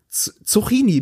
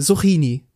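First: The word begins with a sharp s sound. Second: The word begins with a soft s sound. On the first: "mit einem scharfen S" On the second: "mit einem weichen S vorne"

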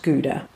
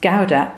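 First: The first vowel sounds like 'goo'. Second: The first vowel sounds like 'gow'. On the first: The speaker calls it wrong. "not Gouda" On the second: The speaker calls it right. "it's pronounced Gouda"

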